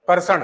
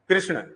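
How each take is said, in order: First: The word begins with 'kar'. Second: The word begins with 'kri'. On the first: It is how people speak in one region. The speaker calls it wrong. "Sikar side में चले जाओ तो कर्षण" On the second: It is the standard form. The speaker calls it right. "बल्कि शुद्ध ये क्या है?"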